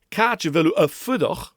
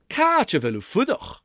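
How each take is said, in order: First: A separate vowel is sounded before the last word. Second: The vowel blends away into the word before. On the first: The speaker calls it wrong. "I don't want ... because that's like a bump in the road" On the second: The speaker calls it right. "Listen again"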